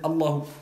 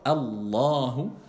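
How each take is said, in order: First: The middle vowel is said short, not prolonged. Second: The middle vowel is prolonged and held longer. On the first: The speaker calls it wrong. "Vous n'allez pas dire Allahu" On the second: The speaker calls it right. "vous allez prolonger un peu"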